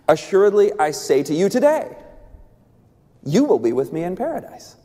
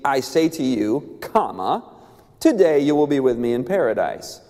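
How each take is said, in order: First: The pause comes after the word today. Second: The pause comes before the word today.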